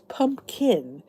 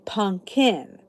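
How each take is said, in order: First: Pumpkin is said the standard way. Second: Pumpkin is said the local Philly way. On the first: This is how the word is supposed to be said. "it's pumpkin" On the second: This is how the speaker herself says it. "but I say pumpkin"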